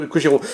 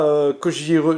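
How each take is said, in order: First: "Kojiro" said in full, ko-ji-ro; corrected name. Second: "Kojiro" cut short as koji, last syllable dropped; clipped wrong name. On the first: Reading the game's box aloud, he fixes it and says "Kojiro" fully. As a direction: fixes it and says "Kojiro" with all three syllables. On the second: Reading the game's box aloud, he says "Kojiro" cut short as koji. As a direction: stumbles on "Kojiro", saying only koji. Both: Shown as a demonstration. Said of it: "mon anglais est à couper au couteau".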